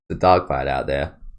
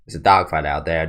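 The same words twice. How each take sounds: First: It is said in a British accent. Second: It is said in an American accent.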